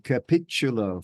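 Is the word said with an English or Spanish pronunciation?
English. It is said with an English-style pronunciation. The speaker calls it wrong. "I wasn't saying the right thing"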